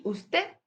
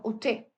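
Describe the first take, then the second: First: Said in the usual way. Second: Usted said as uste; final d dropped. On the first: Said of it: "En vez de decir usted". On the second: Shown as a demonstration. Teacher shows the Andalusian usted, final d dropped. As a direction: drop the last d in usted. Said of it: "decimos usted".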